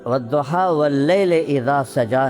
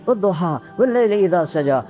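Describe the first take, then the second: First: It is recited slowly and calmly. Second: It is recited quickly and urgently. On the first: The speaker calls it wrong. "उनका लहजा वद्दुहा वल्लैल इज़ा सजा नहीं है" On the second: The speaker calls it right. "जब आदमी किसी को मनाने लगता है तो उसके लहजे में तेजी आ जाती है"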